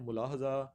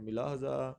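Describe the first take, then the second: First: The first syllable has a u vowel. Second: The first syllable has an i vowel. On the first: "कुछ इसको पढ़ते हैं मुलाहजा" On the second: "कुछ इसको पढ़ते हैं मिलाहजा"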